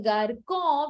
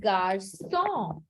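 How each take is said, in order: First: The middle consonant is a hard k sound. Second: The middle consonant is a soft s sound. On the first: The speaker calls it wrong. "the k becomes sir" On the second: The speaker calls it right. "becomes garçon with a sidila"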